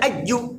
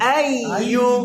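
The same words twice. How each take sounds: First: The sounds are said hard and forcefully. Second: The sounds are said soft and light. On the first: The speaker calls it wrong. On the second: The speaker calls it right.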